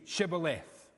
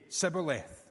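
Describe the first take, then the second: First: The word begins with a 'sh' sound. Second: The word begins with an 's' sound. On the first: The speaker belongs to the group that survives. The speaker calls it right. "The Gileadites say Shibboleth" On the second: The speaker belongs to the group that is killed. The speaker calls it wrong. "can't say Sh. So they say Sibboleth"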